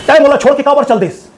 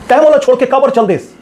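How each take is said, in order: First: It is said loudly with exaggerated, overdone acting. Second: The same.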